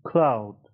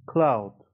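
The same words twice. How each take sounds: The two takes are said the same way.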